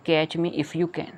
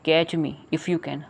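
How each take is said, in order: First: Put-on each word slow and clear for children; spelling the line out for kids; slow reading. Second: Slow reading. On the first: Reading the poem title aloud. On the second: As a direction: catch me if you can, slow and even. Repeating the poem title. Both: Shown as a demonstration.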